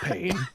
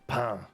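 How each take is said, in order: First: It is pronounced like the English word pain. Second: It is pronounced with a French nasal vowel. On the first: "You could say pain" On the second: "but in French it's pain"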